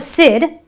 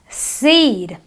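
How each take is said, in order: First: The vowel is a short, clipped I. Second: The vowel is a long, stretched E. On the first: The speaker calls it wrong. "not a sid" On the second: The speaker calls it right. "you have a seed"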